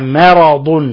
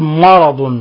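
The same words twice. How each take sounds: First: The m is pronounced thin and light. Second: The m is pronounced heavy and emphatic. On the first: The speaker calls it right. "وإنما مرض" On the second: The speaker calls it wrong. "لا نقول مرض"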